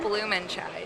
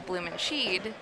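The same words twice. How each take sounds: First: The name is pronounced the German way. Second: The name is pronounced the English way. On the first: The speaker calls it right. "How do you say it correctly" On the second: The speaker calls it wrong. "everyone looks at it and they want to go"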